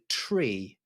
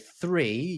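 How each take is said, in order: First: It begins with a plain 't' sound. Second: It begins with a 'th' sound. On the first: This is the aviation radio pronunciation. "you'll say tree" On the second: This is the everyday pronunciation. "you won't necessarily say three"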